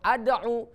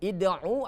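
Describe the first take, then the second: First: The word begins with an 'a' vowel. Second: The word begins with an 'i' vowel. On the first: "atau ad'u" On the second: "Bukan id'u"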